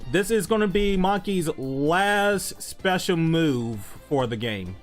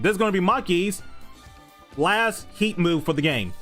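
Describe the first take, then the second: First: It is said with low energy. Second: It is said with high energy.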